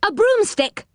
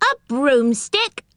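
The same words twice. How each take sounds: First: High-pitched, raised-voice answer; insistent high call; loud call. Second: Slow, rising question in a higher voice; drawn-out astonished query. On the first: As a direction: pitch it high to be heard through a door. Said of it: "said Moonface loudly". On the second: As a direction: echo it back in disbelief. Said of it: "more astonished than ever". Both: A narrator's reading.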